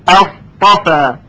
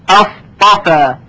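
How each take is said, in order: No difference in how they are said.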